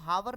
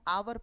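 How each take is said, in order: First: The word starts with an h sound. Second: The word starts with a vowel sound. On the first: The speaker calls it wrong. "इसको हावर नहीं पढ़ते ना" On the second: The speaker calls it right. "इसको हम आवर पढ़ते हैं"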